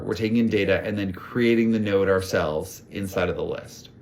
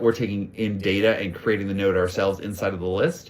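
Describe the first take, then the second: First: It is said a little more slowly. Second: It is said at a normal pace.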